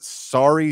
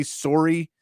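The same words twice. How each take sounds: First: "Sari" said as SAH-ree, open a like in father; "Sari", open SAH vowel, tentative; first guess. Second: "Sori?" said as SOH-ree with a rounded o, rising, questioning; "Sori" with a round o, asked back; corrected guess. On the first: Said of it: "is it Sari?". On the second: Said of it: "I think it's like Sori". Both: Shown as a demonstration.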